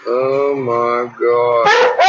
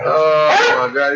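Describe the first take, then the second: First: Very slow, drawn-out savoring; tasting the butter, slow and drawn out. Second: Savoring. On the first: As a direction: stretch it out like it's the best bite ever. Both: Real, not acted. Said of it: "too delicious".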